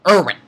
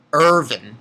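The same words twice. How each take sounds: First: "Irwin" said with a w, like ER-win; the fix that says Irwin with a clear w; corrected name. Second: "Irvin" said with a v, like ER-vin; the slip that says Irvin with a v sound; mispronounced name. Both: Shown as a demonstration. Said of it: "Almost said Irvin".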